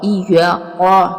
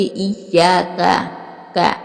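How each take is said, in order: First: इय्या कॉ with a broad कॉ vowel; wrong pronunciation. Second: इय्याका with a clean short का; correct pronunciation. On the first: Teacher showing students the mistake, wrong broad कॉ. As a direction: say कॉ the wrong way, like coffee. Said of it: "ऐसे नहीं पढ़ेंगे". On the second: Teacher showing students the right way, clean का. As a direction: say का crisply, not कॉ. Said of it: "काफ को काफ ही अदा करेंगे". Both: Shown as a demonstration.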